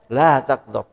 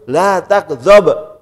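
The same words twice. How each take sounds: First: Said in the usual way. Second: La takdzab stretched very slow and louder, each word leaned on; a slow, louder warning of La takdzab; emphatic La takdzab. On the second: Shown as a demonstration. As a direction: drag out La takdzab and press it firmly. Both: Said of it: "Tiga kali Rasul sebutkan".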